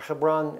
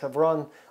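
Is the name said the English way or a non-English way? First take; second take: English; non-English. First: The name has an English pronunciation. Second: The name has a non-English, local pronunciation.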